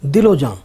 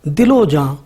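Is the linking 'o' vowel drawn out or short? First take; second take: short; drawn out. First: The linking vowel is clipped short. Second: The linking vowel is drawn out long. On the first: "इख्तिसार के साथ" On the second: "इशबा के साथ पढ़ें हम"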